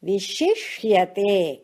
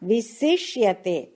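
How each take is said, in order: First: The second syllable has an 'sh' sound. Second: The second syllable has a plain 's' sound. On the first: The speaker calls it right. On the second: The speaker calls it wrong.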